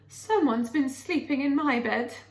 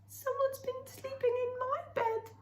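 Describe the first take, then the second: First: It is said in a medium, ordinary voice. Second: It is said in a high, squeaky voice.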